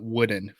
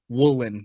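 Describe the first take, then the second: First: The middle consonant is a D sound. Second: The middle consonant is an L sound. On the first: The speaker calls it right. "not wooden" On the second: The speaker calls it wrong. "I pronounced it woolen"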